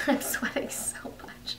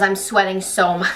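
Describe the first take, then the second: First: Hushed whispered aside, breath only. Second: Said in the usual way. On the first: Real, not acted. Telling her story, whispers the sweaty detail. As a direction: drop to a whisper as if confessing. Repeats the line, then whispers it.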